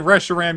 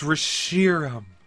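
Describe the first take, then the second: First: The second syllable does not sound like 'sheer'. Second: The second syllable sounds like 'sheer'. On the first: The speaker calls it wrong. "If you say Reshiram, you're a stinky pinky" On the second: The speaker calls it right. "Sheer, like sheer gossamer silk"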